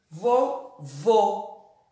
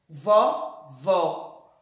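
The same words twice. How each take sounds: First: "vô" said twice with closed ô; closed vowel. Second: "vó" said twice with open ó; open vowel. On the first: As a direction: round and close the o in "vô". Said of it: "o som fechado". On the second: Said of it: "O O em vovó continua ó". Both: Shown as a demonstration.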